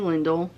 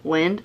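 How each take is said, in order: First: The name is said with two syllables. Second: The name is said with one syllable. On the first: The speaker calls it wrong. "not Lindell" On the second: The speaker calls it right. "Lind, not Lindell"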